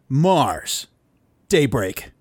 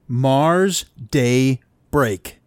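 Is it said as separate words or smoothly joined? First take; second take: smoothly joined; separate words. First: It flows as two joined words. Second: It sounds like three separate words.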